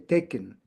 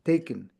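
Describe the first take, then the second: First: The last syllable has a short schwa vowel. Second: The last syllable has a short schwa vowel.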